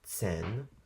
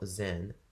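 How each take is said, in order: First: The word begins with a ts sound. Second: The word begins with a plain z sound. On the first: The speaker calls it right. "like I said" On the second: The speaker calls it wrong. "not Zähne"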